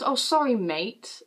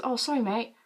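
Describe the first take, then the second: First: Exaggerated apology. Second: Quick, softer passing apology; offhand apology. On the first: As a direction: overdo the apology, lingering on mate. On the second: Retold or imitated. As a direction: toss off sorry mate in passing. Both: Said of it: "Like, not like that".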